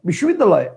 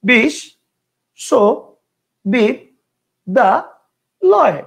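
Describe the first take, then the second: First: The word is said in one unbroken chunk. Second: The word is broken into five separate chunks. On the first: "একবারে ... একটা।" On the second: "কয়টা হইলো? পাঁচটা।"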